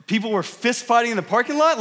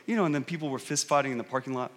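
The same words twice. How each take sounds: First: Higher-pitched echo in disbelief; acted-out astonishment; incredulous. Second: Low, quick, soft aside; mumbled under breath. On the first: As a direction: repeat it back as a stunned question. Retold shocked reaction to the mumble. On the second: Retold or imitated. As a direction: slip it in quietly, as if hoping nobody notices. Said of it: "kind of mumbles under his breath".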